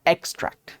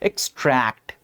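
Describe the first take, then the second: First: The stress is on the first syllable. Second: The stress is on the second syllable. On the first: "फिर भी कह सकते हो कि x पे थोड़ा सा है" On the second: "ट्रैक्ट पे स्ट्रेस दूसरी बार जब मैं पढ़ रहा हूं"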